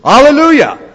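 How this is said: It is said enthusiastically, with great joy.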